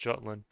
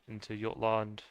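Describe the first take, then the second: First: It is pronounced the usual English way. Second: It is pronounced closer to a Norse pronunciation. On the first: "in regular English you would say" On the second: "at least closer to what the Norse would say"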